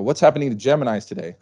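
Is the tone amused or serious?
amused. It is said lightly, in an amused tone.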